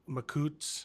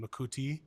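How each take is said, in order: First: The word ends in a consonant with no final vowel. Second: The word ends in a stressed final vowel. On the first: "if it's accented like that" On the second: "with the E accented"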